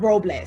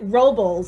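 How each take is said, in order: First: It is said with a Spanish pronunciation. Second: It is said with an American English pronunciation. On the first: "instead of Robles" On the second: "they do pronounce it Robles in California"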